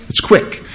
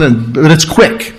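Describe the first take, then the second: First: "It's quick" breathed out as a soft whisper; hushed whisper. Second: Said in the usual way. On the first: Shown as a demonstration. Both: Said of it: "And that's the word".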